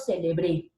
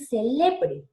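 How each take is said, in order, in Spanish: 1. La sílaba tónica es la última. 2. La sílaba tónica es la del medio. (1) "la mayor fuerza de voz está en la E, aguda" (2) "Se quedó en el medio, se volvió, ¿qué? Una grave"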